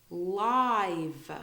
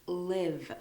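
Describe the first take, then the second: First: LIVE very slow, long I as in "lie"; LIVE drawn out, "lie" gliding into V. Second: LIVE slowly, short I as in "give"; drawn-out demo of LIVE rhyming with "give". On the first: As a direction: stretch LIVE to rhyme with "five". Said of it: "you say it like you say lie". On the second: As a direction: say LIVE as the verb, carefully. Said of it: "But it's a verb". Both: Shown as a demonstration.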